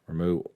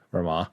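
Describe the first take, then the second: First: The name ends with an 'oo' sound. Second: The name ends with an 'ah' sound.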